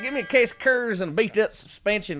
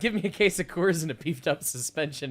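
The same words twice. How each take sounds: First: It is said in a heavy, put-on accent. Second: It is said in a plain, ordinary accent. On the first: The speaker calls it right. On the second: The speaker calls it wrong.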